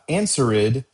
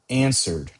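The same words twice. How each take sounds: First: The ending is said as a separate extra syllable. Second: The ending is not said as a separate syllable. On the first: The speaker calls it wrong. "not answered" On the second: The speaker calls it right. "but answered"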